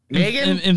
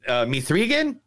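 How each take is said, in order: First: It is said with two syllables, like 'Megan'. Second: It is said with three syllables, like 'Mithrigan'. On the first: "It's Megan" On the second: "I'm calling it Mithrigan because that's what it says"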